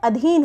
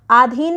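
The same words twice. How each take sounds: First: अधीन with short opening 'a'; correct short vowel. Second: आधीन with long opening 'aa'; wrong long vowel. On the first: Teacher giving correct form, short 'a' starting अधीन. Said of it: "अधीन होता है". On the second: Teacher rejecting a mistake, long 'aa' starting आधीन. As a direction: open आधीन on a full 'aa'. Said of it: "आधीन नहीं होता है". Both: Shown as a demonstration.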